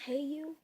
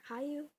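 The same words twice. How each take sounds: First: "Hayu" with first syllable like "hey"; pronounced hey-you. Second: "Hayu" with first syllable like "high"; pronounced high-you. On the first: Giving the cat's name, "Hayu" pronounced hey-you. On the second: Offering another way for the cat's name, "Hayu" pronounced high-you. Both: Shown as a demonstration. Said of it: "however you wanna pronounce it".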